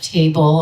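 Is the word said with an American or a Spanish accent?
American. It is said with an American accent. "instead of table"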